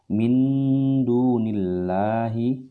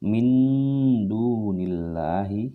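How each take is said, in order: No difference in how they are said.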